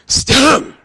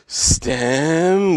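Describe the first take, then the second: First: A harsh throat-clearing H sound follows the S. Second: A long breathy H sound follows the S. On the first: "Or are you clearing your throat?" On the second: "stem with a long H, and that sounds kind of creepy"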